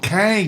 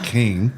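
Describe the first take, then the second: First: The vowel is an open 'a' sound. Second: The vowel is a short 'i' sound. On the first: This is how locals say the town name. The speaker calls it right. "We want Kang" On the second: This is how outsiders say the town name. The speaker calls it wrong. "not King"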